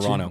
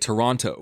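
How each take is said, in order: First: It is said with the second T dropped. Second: It is said with the second T pronounced.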